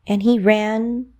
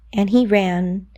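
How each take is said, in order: Both takes have the same delivery.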